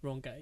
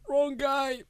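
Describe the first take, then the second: First: Said in the usual way. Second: High, loud mock call. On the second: Remembering what he wanted to tell the man, calling out. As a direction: call it out, pitched up and drawn out.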